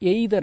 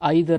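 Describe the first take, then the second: First: The first vowel sounds like 'ay'. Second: The first vowel sounds like 'eye'. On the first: The speaker calls it wrong. "எய்தர் அப்படின்னு உச்சரிக்க வேண்டாங்க" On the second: The speaker calls it right. "ஐதர் அப்படின்னு உச்சரிங்க"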